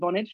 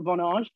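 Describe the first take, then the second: First: The name is said the American way. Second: The name is said a non-American way. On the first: This is how most people in the US say the name. "certainly across the US, that do call it Vonage" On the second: This is not how most people in the US say the name. "not Vonage"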